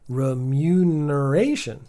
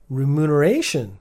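First: The second syllable has a y sound. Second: The second syllable has no y sound. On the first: The speaker calls it right. "Google thinks I did a good job" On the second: The speaker calls it wrong. "it's saying you may have missed the Y in mu"

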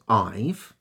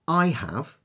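First: The words are merged into one short syllable. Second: Both words are said in full, two syllables. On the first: "I have becomes I've" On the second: "I have becomes I've"

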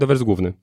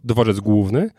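First: The ł sound in główny is dropped. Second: The ł sound in główny is clearly pronounced. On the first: This is how locals actually say it. "my pomijamy eł czasami" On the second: This is not how locals say it. "nie powiemy dworzec główny"

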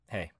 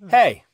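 First: The word is mumbled quietly. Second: The word is said clearly.

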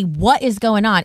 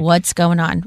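First: It is said in a sharp, attacking tone. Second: It is said in a soft, gentle tone.

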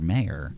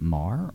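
First: The name is two syllables, like 'may-er'. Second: The name is one syllable, rhyming with 'car'. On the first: The speaker calls it wrong. "is it Marr or Mayer?" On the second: The speaker calls it right. "is it Marr or Mayer?"

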